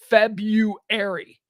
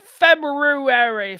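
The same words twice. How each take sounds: First: The r after the b is left out. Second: The r after the b is clearly pronounced. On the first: "don't we all just call it February?" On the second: "because that's how it's spelled"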